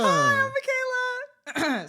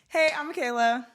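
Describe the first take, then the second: First: The voice is pitched high. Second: The voice is pitched lower.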